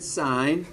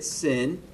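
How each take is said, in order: First: The vowel is long, like in pine. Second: The vowel is short, like in pin. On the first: The speaker calls it right. "We always pronounce it sine" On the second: The speaker calls it wrong. "we're not pronouncing it sin"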